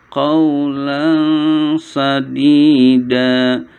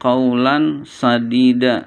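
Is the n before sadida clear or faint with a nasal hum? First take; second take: faint nasal; clear. First: The n is faint with a nasal hum. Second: The n is clear with no nasal hum. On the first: The speaker calls it right. "harus dibacanya samar-samar disertai dengung" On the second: The speaker calls it wrong. "nggak boleh"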